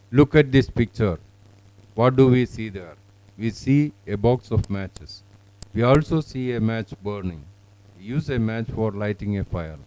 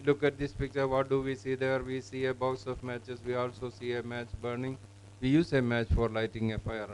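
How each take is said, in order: First: Measured practice reading with pauses between sentences; model student reading. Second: Soft monotone, sentences run together without pauses; level, unstressed read-aloud, barely a break; bad monotone reading. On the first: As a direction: clear read-aloud, each sentence separate with falling end. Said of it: "let us record this one". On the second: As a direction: rattle it off like a pupil reading mechanically. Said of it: "I have seen it even to this extent". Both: Shown as a demonstration.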